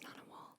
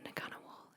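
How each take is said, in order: First: The first syllable sounds like 'nu'. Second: The first syllable sounds like 'nugga'. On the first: The speaker calls it right. "the N G is just nu" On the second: The speaker calls it wrong. "not nugga. So it's not Ngunnawal"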